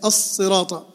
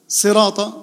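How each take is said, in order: First: الصراط as as-sirata, long S; doubled sad. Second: صراط as sirata with one short S; no shadda. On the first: Teacher showing the doubled sad, long S in الصراط. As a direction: hold the heavy S in الصراط. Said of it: "الصاد حرف مشدد". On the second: Teacher contrasting the word without shadda, short S in صراط. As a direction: begin straight on a single S in صراط. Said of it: "صراط هذه ما فيها شدة". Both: Shown as a demonstration.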